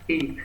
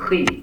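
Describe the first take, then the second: First: The first sound is a soft breathy h. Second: The first sound is a rough scraping kh. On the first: The speaker calls it wrong. "kurang ke atas, sehingga ... mirip dengan ha" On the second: The speaker calls it right. "tapi khi"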